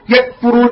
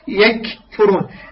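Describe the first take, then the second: First: The k is closed off with no breath release. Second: The k is released with an audible puff of breath. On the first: The speaker calls it wrong. "يأتي بالشدة ولا يأتي بالهمس" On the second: The speaker calls it right. "تأتي بالكاف شديد تغلق ... بعدين تفتح الهمسيتي"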